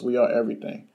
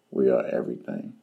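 First: Said in the usual way. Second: Deep proclamation. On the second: Shown as a demonstration. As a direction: drop way down like a grand declaration.

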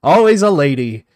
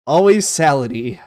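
First: "Always a lady" said as three words, "a" split off, "lady" clear, louder; corrected name. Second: "Always salady" run together as "always SAL-a-dee", the joke misreading; wrong reading joke. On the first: Streamer correcting a viewer's misread name, said carefully. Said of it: "I am so sorry for that". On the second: Streamer jokingly repeats his misreading of the name, playful. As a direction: read "Always salady" as if "salady" were one word. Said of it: "I put the emphasis on the wrong syllable". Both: Real, not acted.

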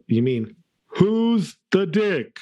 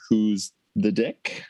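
First: "who's the dick" slow, high and loud, stretched out; mock pronunciation. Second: Segment title. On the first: Shown as a demonstration. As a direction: say "who's the dick" slowly and higher, dragging each word. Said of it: "I don't know the original pronunciation". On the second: Acted. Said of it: "go into the next segment here".

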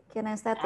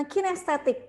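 First: Said in the usual way. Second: Announcing kinestetik. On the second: Shown as a demonstration. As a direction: say "kinestetik" much higher, as a bright announcement. ("kinestetik" diucapkan tinggi dan bersemangat)

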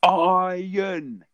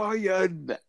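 First: High, loud single word; talking to a foreigner. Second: High, over-clear word; talking to a foreigner. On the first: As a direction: say it loudly to a foreigner. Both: Retold or imitated. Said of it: "you just go".

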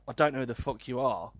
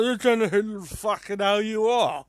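First: Flat, curt and cold, no softening; retold blunt brush-off in an even voice; blunt, dry retort. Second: Put-on higher, louder, slurred drunken snarl; messy drunk version. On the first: Drunk lad snubbing a girl in the park, blunt and curt. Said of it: "I said it quite bluntly as well". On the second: Drunk lad snubbing a girl in the park, loud and slurred. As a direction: slur it out like a rat-arsed lad. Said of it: "much more messier and more drunk".

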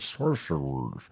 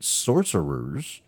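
First: "Sorcerers" slurred slowly into a mushy "shor-sher-ers". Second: "Sorcerers" said slowly and higher, each syllable spaced out; careful retry. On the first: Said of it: "why do I sound drunk saying that word?". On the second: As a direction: sound out "Sorcerers" with deliberate care. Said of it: "I can't say that word tonight". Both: Real, not acted.

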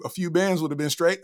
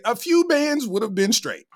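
First: Said in the usual way. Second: A few bands said higher, stress on few; emphatic repeat. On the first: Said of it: "Reginald Mouse said". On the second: Shown as a demonstration. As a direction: lean on few to agree hard.

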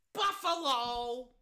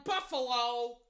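First: Slow, stretched-out team name; drawn-out call. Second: Said in the usual way. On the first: Real, not acted. Repeating the first-down call for Buffalo, drawn out. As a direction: linger long on each syllable.

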